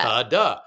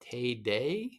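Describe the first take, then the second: First: Both syllables have an 'ah' vowel. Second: Both syllables have an 'ay' vowel. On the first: "my tada is T A D A" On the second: "they look at it and they go"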